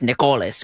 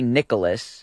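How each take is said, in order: First: The name is said the Greek way. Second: The name is said the ordinary English way.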